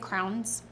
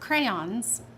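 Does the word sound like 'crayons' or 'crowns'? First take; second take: crowns; crayons. First: The word is said so it sounds like 'crowns'. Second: The word is said fully as 'crayons'. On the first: The speaker calls it wrong. "I say crowns" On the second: The speaker calls it right. "I said that right"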